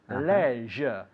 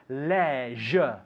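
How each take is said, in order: First: The word is said with a British pronunciation. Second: The word is said with a British pronunciation.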